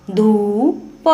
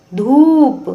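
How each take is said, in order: First: Said in the usual way. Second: धूप with the ऊ held long, higher and louder. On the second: Shown as a demonstration. Teacher repeating धूप for pupils, long and loud. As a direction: stretch and lift the ऊ in धूप. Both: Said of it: "लंबे समय तक और ऊंचे स्वर में पढ़ा".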